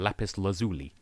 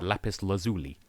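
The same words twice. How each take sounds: First: It is said with an American pronunciation. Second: The same.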